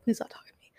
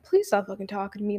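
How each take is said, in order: First: Voiceless whisper of "Please stop talking to me". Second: Said in the usual way. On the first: Shown as a demonstration. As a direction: breathe "Please stop" without voice, as inner thought. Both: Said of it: "in my head, I said".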